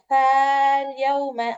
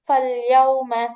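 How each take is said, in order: First: The long a after f is pronounced. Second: The long a after f is dropped. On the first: The speaker calls it wrong. "இந்த அலிஃபை உச்சரிக்க ஃபல்யௌம அப்படின்னு உச்சரிக்க கூடாது, அது தப்பு" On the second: The speaker calls it right. "இந்த அலிஃபை விட்டுட்டு ஃபல்யௌம அப்படின்னு உச்சரிச்சிடணும்"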